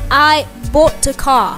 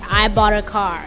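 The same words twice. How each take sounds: First: It is said in a British accent. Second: It is said in an American accent. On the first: "That that's that what the British people would say" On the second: "the other people they will say"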